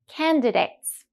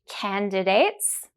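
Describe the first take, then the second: First: It is said at a normal, natural speed. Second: It is said very slowly, stretching the ending. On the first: "Then we'll say them naturally" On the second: "The first time we'll go very slowly with focus on the ending sounds"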